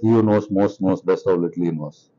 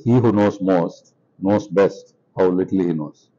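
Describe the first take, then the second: First: It is said at normal speed. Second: It is said slowly.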